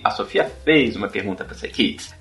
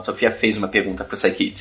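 First: The pitch moves up and down, like a question. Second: The pitch stays fairly level, like a statement. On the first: The speaker asks whether it is true. "É uma pergunta" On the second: The speaker asserts that it is true. "Eu tô dizendo que é verdade"

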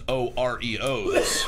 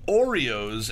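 First: The word is spelled out letter by letter. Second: The word is said as one smooth word. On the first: "and I pronounce it as O-R-E-O's?"

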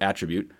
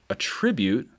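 First: The stress is on the first syllable. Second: The stress is on the second syllable. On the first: It is a noun naming a quality. "the noun attribute with the emphasis on the first syllable" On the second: It is a verb meaning to credit something. "Notice the emphasis on the second syllable"

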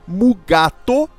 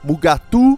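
First: The name ends in an 'o' vowel sound. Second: The name ends in a 'u' vowel sound. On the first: "que é como chamavam" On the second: "além das formas erradas com o U"

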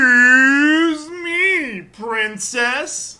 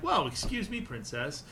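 First: It is said in a very exaggerated way. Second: It is said plainly, without exaggeration.

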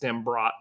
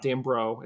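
First: The name ends with a clear final t sound. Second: The name ends without a final t sound. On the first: The speaker calls it right. "it's Dimbrot" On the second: The speaker calls it wrong. "It's not Dimbro"

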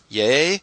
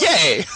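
First: It sounds doubtful, almost like a question. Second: It sounds excited and enthusiastic.

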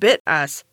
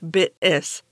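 First: The first vowel rhymes with bit, ending in us. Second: The first vowel rhymes with bit, ending in is. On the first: The speaker calls it wrong. "I was disappointed to find that it's pronounced bit us" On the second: The speaker calls it right. "it's not pronounced bit us, actually, it's bit is"

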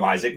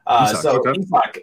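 First: It sounds like the English name Isaac. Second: It does not sound like English Isaac. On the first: The speaker calls it wrong. "I've always called him Isaac" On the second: The speaker calls it right. "No, it's Isak"

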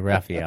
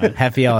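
First: The name is said the anglicized way. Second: The name is said the native way. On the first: This is how the speaker habitually says it. The speaker calls it wrong. "and I say Rafael" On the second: This is how the name should be pronounced. The speaker calls it right. "I should know how to pronounce his name"

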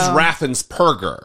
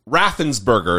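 First: The ending sounds like 'purger' with a P. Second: The ending sounds like 'burger' with a B. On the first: The speaker calls it right. "But it is Raffensperger" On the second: The speaker calls it wrong. "Raffensperger is what I say"

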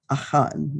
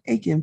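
First: The name is said in a Hebrew-style way. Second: The name is said in an anglicized way. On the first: This is the scholarly pronunciation. "if you're more of a Hebrew scholar, Achan might be how you might pronounce it" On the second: This is the everyday pronunciation. "Achan for most of us is fine"

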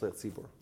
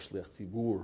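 First: The term is said in a casual everyday way. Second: The term is said in a careful precise way. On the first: "We call it shliach tzibur" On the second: "if you want to be precise and nitpicky"

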